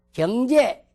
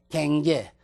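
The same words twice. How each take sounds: First: Said in the usual way. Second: 갱제 with 'gyeong' flattened to 'gaeng'; dialect pronunciation. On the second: Shown as a demonstration. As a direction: say 갱제 the regional way, 'gaeng-je'. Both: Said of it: "누구 말같이는 하지만".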